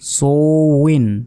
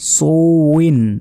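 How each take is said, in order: Both takes have the same delivery.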